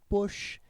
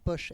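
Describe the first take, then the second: First: The word is said with a Breton-accented O. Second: The word is said with a standard accent. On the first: The speaker calls it wrong. "elle fait poche" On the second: The speaker calls it right. "Elle n'arrive pas à dire poche"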